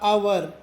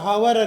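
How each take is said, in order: First: The word begins with a vowel sound. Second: The word begins with an h sound. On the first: The speaker calls it right. "ಅವರ್ ಹೇಳಬೇಕು. H silent" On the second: The speaker calls it wrong. "ಉಚ್ಚಾರ ಹವರ್ ಅಲ್ಲ"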